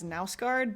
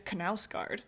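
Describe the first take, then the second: First: The initial K is silent before the N. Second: The initial K is pronounced before the N. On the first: The speaker calls it wrong. "in my brain I would pronounce that as Nausgard" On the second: The speaker calls it right. "you do say it as Knausgard, ... but you say the K"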